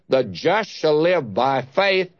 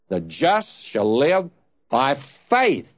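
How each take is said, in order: First: The stress is on "live". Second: The stress is on "faith".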